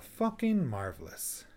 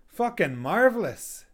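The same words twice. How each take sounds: First: It sounds negative, with the pitch falling. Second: It sounds positive and genuinely pleased.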